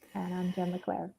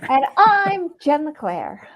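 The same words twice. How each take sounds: First: It is said quietly, with little energy. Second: It is said loudly, with lively energy.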